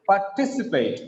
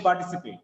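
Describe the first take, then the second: First: "Participate" with a strong, lifted TI; par-TI-cipate, falling after the stress; stress on second syllable. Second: Said in the usual way. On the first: Shown as a demonstration. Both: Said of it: "Not just participate".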